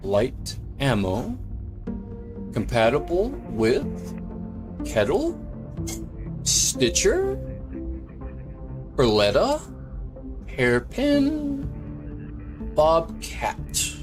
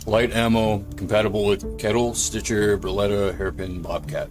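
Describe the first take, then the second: First: The voice sounds put-on and affected. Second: The voice sounds relaxed and natural. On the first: The speaker is trying to sound a certain way. The speaker calls it wrong. "thinking that I have to sound a certain way" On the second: The speaker is just being himself. The speaker calls it right. "instead of saying"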